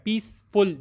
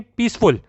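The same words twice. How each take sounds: First: peaceful split into two beats, पीस, then फुल; pause after पीस. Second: Said in the usual way. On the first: Shown as a demonstration. Teacher showing two syllables, peaceful with a break. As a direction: stop briefly after पीस before saying फुल. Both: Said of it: "पीस के आगे आपको रुकना पड़ता है".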